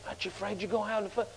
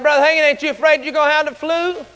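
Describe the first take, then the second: First: Hushed, very soft, hurried question; quiet. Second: Said in the usual way. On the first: Retold or imitated. Worried man asking Brother Hagin about flu, quiet. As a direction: ask it fast under your breath. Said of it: "Said it quiet, you know". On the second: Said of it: "Said it quiet".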